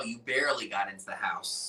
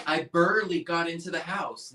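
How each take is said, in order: First: Said in the usual way. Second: "barely" said as burr-lee, pitched up; mock the burr vowel in "barely"; barely as "burly". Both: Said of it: "No, you barely got into the house".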